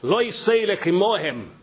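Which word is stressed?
lo. The stress is on the word lo.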